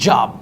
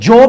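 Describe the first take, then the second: First: The vowel is an 'ah' sound. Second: The vowel is an 'o' sound. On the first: The speaker calls it right. "जो ओ है उसको क्या sound लेके आ जाते हैं? आ" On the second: The speaker calls it wrong. "तो जॉब नहीं"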